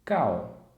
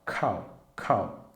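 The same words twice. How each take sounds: First: "cal" with a hard k and no breath; unaspirated cal. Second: "cal" with a puff of air after the k; aspirated cal. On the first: Teacher showing students the unaspirated "cal". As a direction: say "cal" with a plain k and no air. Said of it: "nós temos aqui cal". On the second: Teacher showing students the aspirated "cal". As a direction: blow the k of "cal" out. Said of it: "aqui você vai assoprar também". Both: Shown as a demonstration.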